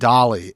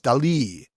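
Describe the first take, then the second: First: The name sounds like the word dolly. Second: The name does not sound like dolly. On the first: This is how the reporter was saying it. The speaker calls it wrong. "you're saying Dolly" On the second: This is how the name should be said. The speaker calls it right. "and it's Dali"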